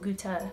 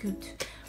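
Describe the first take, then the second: First: The final e is pronounced as a syllable. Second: The final e is silent, one syllable. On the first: The speaker calls it right. "you have to go gute" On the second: The speaker calls it wrong. "not just gut"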